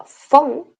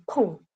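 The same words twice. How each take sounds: First: "fon" with a clear F sound; wrong Spanish F. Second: "pon" with a soft puffed P, no F; Korean-style P for F. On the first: Teacher showing students the sound to avoid, "fon" with an F. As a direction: say "fon" starting on a drawn-out F. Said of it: "No se pronuncia fon, sino pon". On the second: Teacher showing the nearest Korean sound, "pon" with a P. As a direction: say "pon", lips closed then released, quieter. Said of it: "Es lo más cercano al sonido de la F". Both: Shown as a demonstration.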